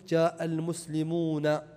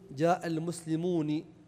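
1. يأتي بعد النون الأخيرة الصوت 'a'. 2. يأتي بعد النون الأخيرة الصوت 'i'. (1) "فافتح تكون مفتوحة" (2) "في لغة لكنها شاذة تكسر النون"

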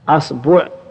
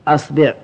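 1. تأتي بعد الباء ضمة. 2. تأتي بعد الباء كسرة. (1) "والضم" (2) "والكسر"

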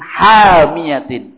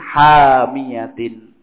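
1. Vokal pendek diikuti hamzah. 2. Vokal panjang diikuti bunyi y. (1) "haknya pendek, terus pakainya hamzah" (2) "haknya panjang, tidak ada hamzah, pakainya ya"

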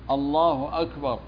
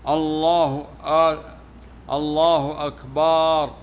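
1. لا تُمدّ أي حركة. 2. تُمدّ الحركة التي قبل الراء الأخيرة. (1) "اللفظ الصحيح الله أكبر بالهمزة" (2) "يقولون إن أكبر جمع كبر وهو الطبل"

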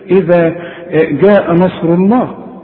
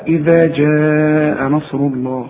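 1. يبدأ "jaa" بصوت g قاسٍ. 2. يبدأ "jaa" بصوت j ناعم. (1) "مش هنقول بقى ايه" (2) "عطش الدين دائما"

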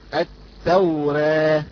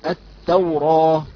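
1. الحركة الأخيرة بين الفتح والكسر. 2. الحركة الأخيرة فتحة صريحة. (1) "أما إذا قرأناها بالتقليل" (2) "إذا قرأناها بالفتح تقرأ هكذا"

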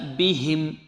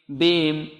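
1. صوت الهاء واضح وكامل النطق. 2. صوت الهاء ضعيف يكاد لا يُسمع. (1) "لابد من إعمال المخرج فيها" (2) "لا نقول إن ربهم بهم بهم"

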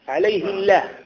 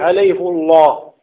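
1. اللام في لفظ الجلالة رقيقة وخفيفة. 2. اللام في لفظ الجلالة مفخّمة وثقيلة. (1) "بالترقيق، فما تجيش" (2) "فيأتي بهذه لكي تأتي بمفخم"

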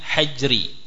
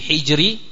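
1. Vokal pertama adalah a. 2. Vokal pertama adalah i.

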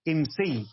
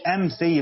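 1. أول حرف علة هو صوت 'i'. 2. أول حرف علة هو صوت 'a'.

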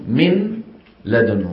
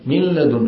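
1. النون واضحة النطق قبل اللام. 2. تُدغم النون في اللام مع غنة. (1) "نون ساكنة تقرع بطرف اللسان مخرج النون" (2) "بعض القبائل... فيها غنة"

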